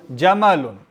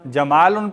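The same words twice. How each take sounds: First: जमलुन with a short middle A; short vowels. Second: जमालुन with a long middle AA; lengthened alif. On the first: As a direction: keep the vowel after M brief in जमलुन. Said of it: "जमालुन पढ़ेंगे तो क्या होगा". (جَمَلٌ، میم پر چھوٹی آواز) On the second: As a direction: stretch the vowel after M in जमालुन. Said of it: "लंबा हो जाएगा ना". (جَمالٌ، لمبے الف کے ساتھ) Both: Shown as a demonstration.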